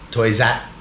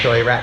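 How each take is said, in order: First: The second word starts with a z sound. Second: The second word starts with an r sound.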